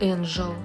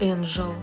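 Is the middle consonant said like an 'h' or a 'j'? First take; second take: j; j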